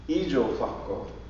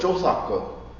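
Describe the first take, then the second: First: The word is said with four syllables. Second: The word is said with three syllables. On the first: This is the oldest form. "But even older than that" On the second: This is an older form. "In the older, a little bit older days"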